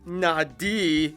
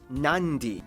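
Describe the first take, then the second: First: The d is said plainly, with no n before it. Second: An n sound comes before the d. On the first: The speaker calls it wrong. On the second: The speaker calls it right.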